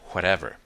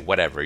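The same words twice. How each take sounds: First: It begins with a breathy H-like W sound. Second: It begins with a plain W sound. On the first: "more like W and H" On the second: "You wouldn't say whatever"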